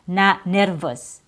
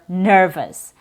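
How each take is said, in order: First: The first vowel is a different, inaccurate vowel. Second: The first vowel is a clear er sound. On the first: The speaker calls it wrong. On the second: The speaker calls it right. "the proper vowel sound"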